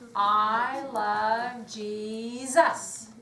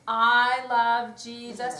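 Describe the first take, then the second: First: The phrase is stretched slowly to its end. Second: The phrase is rushed quickly to its end.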